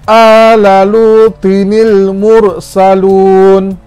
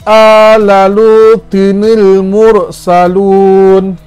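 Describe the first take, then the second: No difference in how they are said.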